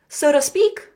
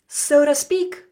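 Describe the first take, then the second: First: It is said quickly, words run together. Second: It is said quickly, words run together.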